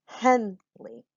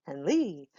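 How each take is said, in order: First: Henley split, strong HEN, small lee; stress on first syllable. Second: Henley as hen-LEE, drawn-out last syllable; stress on second syllable. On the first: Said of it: "I say my name". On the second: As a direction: lean on a long falling LEE in Henley. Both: Shown as a demonstration.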